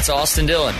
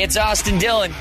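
First: It is said in his normal accent. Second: It is said in a New England accent.

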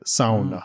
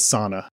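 First: It is said the Finnish way. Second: It is said the common English way. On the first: The speaker calls it right. "That's a like the Finnish way to say it" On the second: The speaker calls it wrong. "everybody says sauna incorrectly"

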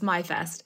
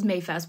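First: The first syllable sounds like 'my'. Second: The first syllable sounds like 'may'. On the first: The speaker calls it right. "but it's MyFest" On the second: The speaker calls it wrong. "often mispronounced as Mayfest"

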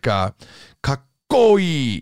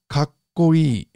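First: The double k is heavily stressed. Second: The double k is lightly stressed. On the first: The speaker calls it wrong. "You're not going to say like, kakkoi. You're not going to be doing it like that" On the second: The speaker calls it right. "It's just kakkoi"

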